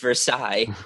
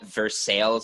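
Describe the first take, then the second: First: The word is said with a French pronunciation. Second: The word is said with a local Kentucky pronunciation. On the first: The speaker calls it right. "no, it's Versailles" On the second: The speaker calls it wrong. "they call it Versailles out here"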